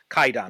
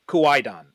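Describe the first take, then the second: First: It has no w sound after the k. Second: It has a w sound after the k. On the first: This is the modern form of the word. "in modern pronunciation, it's actually pronounced Kaidan without the W" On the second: This is the old form of the word. "word for this in kind of archaic Japanese is Kuaidan"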